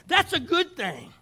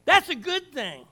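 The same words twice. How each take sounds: First: 1 emphatic declaration. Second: 1 emphatic repeat. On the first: Emphatic preaching. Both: Real, not acted.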